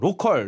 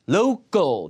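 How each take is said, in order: First: It is said as Korean syllables ro-keol. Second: It is said with a stressed 'lou' and a 'kl' ending. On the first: The speaker calls it wrong. "로컬이 아니라 로컬은 못 알아들어요" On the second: The speaker calls it right. "로우 끌이에요"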